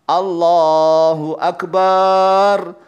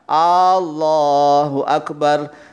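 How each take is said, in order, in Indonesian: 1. Vokal pada bar dipanjangkan. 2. Vokal di awal Allahu dipanjangkan. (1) "tapi barnya yang salah" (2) "kalau a-nya salah panjang"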